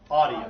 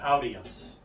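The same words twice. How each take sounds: First: The first vowel is an 'aw' sound. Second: The first vowel is an 'ow' sound. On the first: The speaker calls it right. "Like A W" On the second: The speaker calls it wrong. "not audience. That's a car, Audi"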